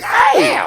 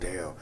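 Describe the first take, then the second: First: It is said in a high voice. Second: It is said in a deep, low voice. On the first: "I'll be like high voice shit" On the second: "the morning voice"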